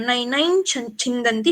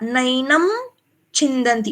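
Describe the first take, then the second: First: The first word ends with a palatal 'ny' sound. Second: The first word ends with an 'm' sound. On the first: The speaker calls it right. "अभी यहाँ पे मैंने य का उच्चारण किया" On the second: The speaker calls it wrong. "म बोला आपने यहाँ पे"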